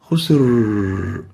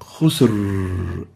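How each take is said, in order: First: The final R is very loose and relaxed. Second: The same.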